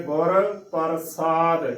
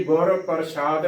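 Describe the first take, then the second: First: ਪ੍ਰਸਾਦ with a plain s, par-saad; correct pronunciation. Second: ਪ੍ਰਸ਼ਾਦ with sh, par-shaad; wrong pronunciation. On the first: Teacher showing the right reading, ਪ੍ਰਸਾਦ with s. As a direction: say ਗੁਰ ਪ੍ਰਸਾਦ with s, not sh. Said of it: "ਇਸ ਦਾ ਸਹੀ ਉਚਾਰਨ ਹੈ". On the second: Teacher showing the mistake, ਪ੍ਰਸ਼ਾਦ with sh. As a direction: say ਗੁਰ ਪ੍ਰਸ਼ਾਦ with a sh sound. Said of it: "ਗਲਤ ਉਚਾਰਨ ਹੈ". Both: Shown as a demonstration.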